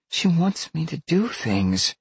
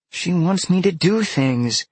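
First: Put-on high-pitched girl's complaint; distressed girl. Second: Put-on high, louder girl's wail of complaint; exasperated girl. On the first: Upset girl complaining about her beast. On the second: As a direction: repeat it louder, high-pitched and insistent. Repeats complaint more emphatically. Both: A narrator's reading.

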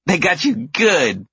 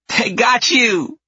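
First: Put-on high, slow, giggly child voice; laughing little girl. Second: High, slow, loud gleeful cry; excited little girl. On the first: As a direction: say it through kid giggles. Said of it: "laughs the older one". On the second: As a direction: crow with delight like a kid. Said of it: "the tiny one exclaims". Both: A narrator's reading.

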